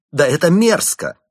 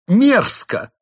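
First: High, loud disgusted outburst; angry. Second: Even higher, loud shriek of disgust; furious despair. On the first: Chimp monk outraged by the plot against the girl, loud. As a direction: spit out the disgust. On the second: Chimp monk at the peak of anger and despair, shrieking. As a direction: scream the word in rage. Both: Acted. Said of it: "прорезались злость и отчаяние".

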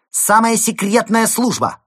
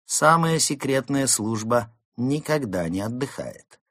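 First: High, very loud announcement; ringing female voice. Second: Higher, measured, self-assured statement; composed pronouncement. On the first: Rescuer announcing herself from behind the door, ringing shout. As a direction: shout it like a raid on villains. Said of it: "раздался звонкий голос самки". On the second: Fox to Mole on her duty, composed. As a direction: state it proudly without shouting. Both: Acted.

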